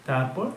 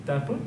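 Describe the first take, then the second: No difference in how they are said.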